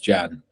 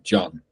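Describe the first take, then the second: First: The name has a flat English 'a' vowel. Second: The name has a deeper, open 'o'-like vowel. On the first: "it's spelt Can, but pronounced Jan" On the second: "a Turk would pronounce it like John"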